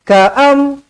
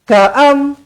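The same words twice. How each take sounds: First: The first vowel is kept short. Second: The same.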